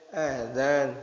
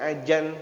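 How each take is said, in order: First: The middle consonant is a dz. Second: The middle consonant is a j. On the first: The speaker calls it right. "Adzan bukan ajan" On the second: The speaker calls it wrong. "ada yang ajan"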